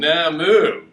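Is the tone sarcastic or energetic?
sarcastic. It is said in a sarcastic tone.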